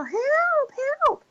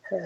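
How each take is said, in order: First: Put-on girly cry for help. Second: Foghorn yell. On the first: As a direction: imitate calling for help like a girl. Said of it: "when you use a high-pitched voice". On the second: Retold or imitated. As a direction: imitate a foghorn, holding one steady note. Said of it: "he starts yelling like this".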